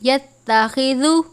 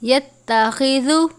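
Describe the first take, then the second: Both takes have the same delivery.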